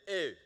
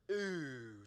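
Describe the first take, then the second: First: Short, punchy "ew" of disgust; Jimmy Fallon. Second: Drawn-out "ooh" of distaste; negative "ooh". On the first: Pastor offering the congregation another version, mock-disgusted ew. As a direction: imitate a comedian's comic "ew". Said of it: "Or Jimmy Fallon would be". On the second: Pastor showing the congregation how to react to something negative, displeased ooh. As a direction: demonstrate a long displeased "ooh". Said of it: "when you see something that's negative". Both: Shown as a demonstration.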